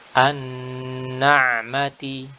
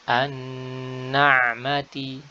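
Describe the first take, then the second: The two takes are said the same way.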